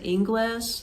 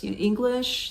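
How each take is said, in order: First: "English" said with an -es ending, like "Ingles"; local pronunciation. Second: Said in the usual way. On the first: Retold or imitated. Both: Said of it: "is how they say it".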